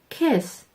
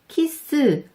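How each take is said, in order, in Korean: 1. 단어가 자음만으로 끝나요. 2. 끝 자음 뒤에 모음이 붙어요. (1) "이렇게 발음하세요" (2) "으 받침 넣어서 발음하시면 이상해요. 키스, 패스 이게 아니고"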